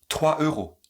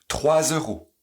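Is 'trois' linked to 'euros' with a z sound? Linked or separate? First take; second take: separate; linked. First: The two words are said apart, with no z. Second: A linking z sound joins the two words. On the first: "Sans la liaison" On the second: "avec la liaison et l'enchaînement"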